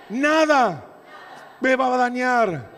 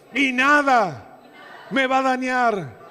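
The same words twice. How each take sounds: First: Loud and high, hammered home; shouted repeat. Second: Loud, slow, high, with full force; shouted declaration. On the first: Pastor leads the church in repeating it, shouted. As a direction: shout it again for the congregation to echo. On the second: Pastor leads the church in a declaration, shouted. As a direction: belt it as a battle cry. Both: Real, not acted. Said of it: "Decí conmigo".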